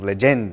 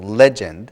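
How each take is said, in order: First: The stress is on the second syllable. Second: The stress is on the first syllable. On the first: The speaker calls it wrong. "a lot of students end up saying legend or something like this" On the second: The speaker calls it right. "put the accent on the first syllable"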